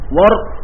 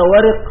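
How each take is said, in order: First: The r is followed by no vowel. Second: The r is followed by an i vowel. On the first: "سكون الراء مع تثليف الواو" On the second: "ونصاب الورق بكسر الراء"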